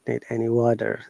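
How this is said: The T sounds like D; the final R is heard. "An American will say"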